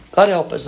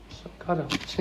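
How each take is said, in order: First: A raised plea to the room; fervent exclamation. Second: A soft sigh of a prayer; whispered aside. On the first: Speaker to audience, fervent plea out loud. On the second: Speaker to audience, hushed trailing plea. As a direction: breathe it, almost voiceless. Quiet repeat closing the thought. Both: Real, not acted.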